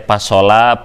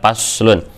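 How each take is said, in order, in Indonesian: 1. Diucapkan dengan vokal a, o, a. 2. Diucapkan dengan vokal a, u. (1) "Kadang yang baru baca ini teh dibaca teh pasola" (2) "ternyata dibacanya adalah paslun"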